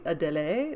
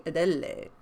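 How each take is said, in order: First: Adele as a-deh-LAY, lifted at the end; alternative French pronunciation. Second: Adele as a-DELL-ay, falling at the end; alternative French pronunciation. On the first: Reader unsure of French offers one Adele, alternative pronunciation. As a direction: say Adele in three syllables, rising. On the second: Reader unsure of French offers another Adele, alternative pronunciation. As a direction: say Adele with the middle stressed, dropping off. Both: Shown as a demonstration. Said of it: "but it could be Adele".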